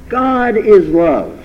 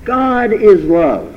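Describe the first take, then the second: First: It is said as a firm exclamation. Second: It is said as a firm exclamation.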